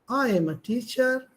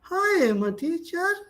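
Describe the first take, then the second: First: It sounds modest and polite. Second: It sounds hesitant and lacking confidence. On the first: The speaker is modest and well mannered. "sir is very humble" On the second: The speaker doubts himself. "He doesn't have confidence on himself"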